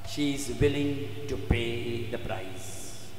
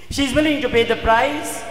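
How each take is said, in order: First: Low, soft and slow; weighty, subdued statement; hushed, solemn. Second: Raised, ringing preacher's voice; forceful restatement; emphatic declaration. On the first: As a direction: let it sink down slowly and quietly. Solemn statement, then repeated with force. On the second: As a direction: proclaim it high and loud. Repeats the statement emphatically. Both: Shown as a demonstration.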